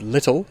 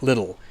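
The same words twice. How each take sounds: First: "little" with a strong T in the middle; "little" with a true T, not a D; British T. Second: "little" with the T softened to a quick D; "little" the Australian or American way, T flapped. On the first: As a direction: say "little" the British way, T fully sounded. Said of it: "little in British English would be pronounced". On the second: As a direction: say "little" like "liddle". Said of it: "Australian or in American English". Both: Shown as a demonstration.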